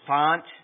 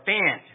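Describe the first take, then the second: First: The vowel does not rhyme with 'ant'. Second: The vowel rhymes with 'ant'. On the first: The speaker calls it wrong. "I didn't know if it was font or Fant" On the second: The speaker calls it right. "it's Ant with an F"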